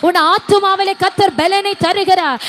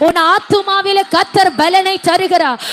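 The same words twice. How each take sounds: The two takes are said the same way.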